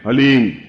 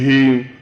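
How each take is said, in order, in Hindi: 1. आधे 'h' के बाद सीधे 'l' आता है। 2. 'h' सीधे स्वर में चला जाता है। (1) "बहुत ध्यान से उच्चारण करने देना है" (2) "कोई बोले हीम, तो कुछ फायदा नहीं होगा"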